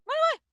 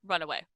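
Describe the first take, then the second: First: Very high, loud squeal of retreat; fleeing critter. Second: Said in the usual way. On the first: Acted. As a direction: squeak it out like a tiny creature fleeing. Creature's flight voiced in mimicry.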